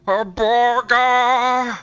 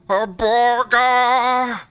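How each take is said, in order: First: It is said with strong craving. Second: The same.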